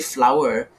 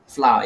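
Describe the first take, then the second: First: It sounds exactly like the word 'flower'. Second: It is said in a Malaysian way, unlike 'flower'. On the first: This is how the film characters say it. "it's the same pronunciation as, you know, roses and chrysanthemums and your traditional flowers" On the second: This is how it is said locally. "we in Malaysia we say flour"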